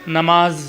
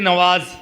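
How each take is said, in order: First: The middle consonant is an m sound. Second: The middle consonant is a w sound. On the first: The speaker calls it right. "क्या होता है? नमाज" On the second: The speaker calls it wrong. "ऐसे मत बोलना"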